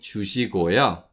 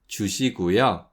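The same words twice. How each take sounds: First: The middle syllable is said with an o vowel. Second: The middle syllable is said with a u vowel. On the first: "instead of saying 주시고요" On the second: "we say 주시고요"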